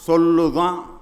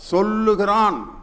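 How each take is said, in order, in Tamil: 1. திருநெல்வேலி வட்டார வடிவின் சுருக்கமான வடிவம் சொல்லப்படுகிறது. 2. முழு நிலையான வடிவம் சொல்லப்படுகிறது. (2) "சொல்லுகிறான் அப்படின்னு சொல்ல சொல்லுங்க"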